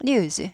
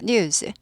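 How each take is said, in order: No difference in how they are said.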